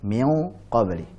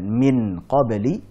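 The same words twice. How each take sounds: First: The n is half-hidden, between clear and merged. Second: The n is pronounced fully and clearly. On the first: The speaker calls it right. "tapi mengucapkan antara idhar dan idgham" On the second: The speaker calls it wrong. "Bukan min qabli"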